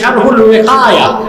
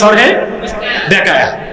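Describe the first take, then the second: First: The second word begins with a W sound. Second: The second word begins with a B sound. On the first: The speaker calls it right. "আমি বলছি এই নামে কোনো কিতাব নাই" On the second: The speaker calls it wrong. "মানে এটারে বলে শরহে বেকায়া"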